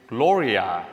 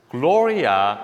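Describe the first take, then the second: No difference in how they are said.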